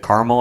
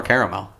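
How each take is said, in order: First: Caramel squeezed into two syllables; first pronunciation of caramel. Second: Caramel in three full syllables; second pronunciation of caramel. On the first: Host asks which way to say it, caramel as CAR-mul. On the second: Host offers the other way, caramel as CARE-uh-mel. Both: Shown as a demonstration. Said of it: "Is it caramel or caramel".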